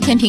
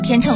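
First: The second syllable is pronounced ping. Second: The second syllable is pronounced cheng. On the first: "一会儿读天平" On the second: "一会儿读天秤"

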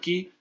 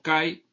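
First: The vowel sounds like 'ee'. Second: The vowel sounds like 'eye'. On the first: "se puede pronunciar ki o kai" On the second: "se puede pronunciar ki o kai"

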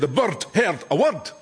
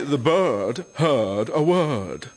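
First: It is said in a Scottish accent. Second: It is said in an English accent. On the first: The speaker calls it right. "we say" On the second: The speaker calls it wrong. "You say"

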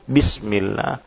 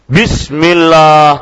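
First: It is said quietly, at a moderate volume. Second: It is said loudly, audible to everyone around. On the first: It is said just enough, without broadcasting it. The speaker calls it right. "Enggak, secukupnya" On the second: Everyone nearby can hear it. The speaker calls it wrong. "jangan nyaring-nyaring"

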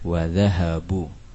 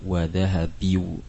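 First: The verb ends in a u vowel. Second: The verb ends in an i-u vowel sequence. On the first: The speaker calls it right. "adalah harakat dhammah" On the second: The speaker calls it wrong. "Kalau diganti dengan kasroh akan sulit dibacanya"

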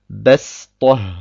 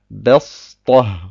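First: The s is a plain, light Sin sound. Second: The s is a heavy, emphatic Sad sound. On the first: The speaker calls it right. "Ich sage Bestoh ... Ich spreche ein Sin aus" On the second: The speaker calls it wrong. "und nicht Bestoh"

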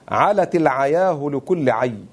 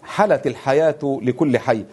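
First: The words use an ayn sound instead of h. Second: The words use a pharyngeal h sound. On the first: "لهجة الفحفحة في لغة هذيل" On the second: "في لهجة قريش التي نقرأها الآن"

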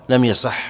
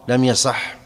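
No difference in how they are said.

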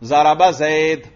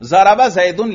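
First: The last word ends bare, with no vowel ending. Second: The last word ends with a vowel-plus-n ending. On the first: The word is read without its case ending. "زید پر اعراب نہیں پڑھا" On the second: The word carries its case ending. "ضربہ زیدن لکھا ہوا ہے"

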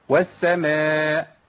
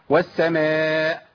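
The two takes are said the same way.

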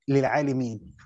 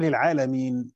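First: The middle vowel is an 'i' sound. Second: The middle vowel is an 'a' sound. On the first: The signs are for those with knowledge. "بالكسر" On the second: The signs are for all the worlds. "وقراءة الجمهور للعالمين"

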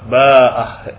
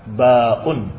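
First: It has a long vowel, glottal stop and final h. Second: It has a glottal stop but no final h. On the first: "bil maddi wal ha. Dengan mad dan dengan ha" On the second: "Kalau dengan mad tanpa ha"

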